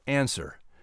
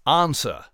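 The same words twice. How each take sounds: First: The first vowel is a flat American 'a'. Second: The first vowel is a broad British 'ah'. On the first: "instead of answer" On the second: "most British people say ah, like answer"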